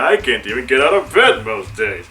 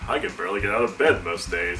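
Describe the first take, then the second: First: It is said in a silly, playful voice. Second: It is said in a flat, monotone voice. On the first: "trying to be a little more silly" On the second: "I think I did it in the monotone voice"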